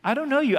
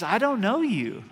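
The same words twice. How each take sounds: First: Know hit higher and louder; stronger stress on know. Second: Don't leaned on, higher, falling off; stress on don't. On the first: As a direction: punch know harder the second time. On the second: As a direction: press the word don't. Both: Shown as a demonstration. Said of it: "the emphasis here is".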